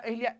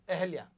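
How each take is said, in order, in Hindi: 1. यह 'i' स्वर के साथ ज़ोर देकर बोला जाता है। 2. यह हल्के से, छोटे 'a' स्वर के साथ बोला जाता है। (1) "इतना नहीं जोर देना है" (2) "हल्का हल्का"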